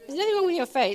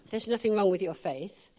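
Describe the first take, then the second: First: Nothing raised higher and louder; stress on nothing. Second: Said in the usual way. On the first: Shown as a demonstration. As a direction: lift nothing up, preacher's emphasis.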